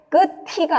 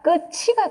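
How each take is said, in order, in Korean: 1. 두 번째 음절은 t 소리로 시작해요. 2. 두 번째 음절은 ch 소리로 시작해요. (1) "끝이가 아니라" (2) "끝이가 됩니다"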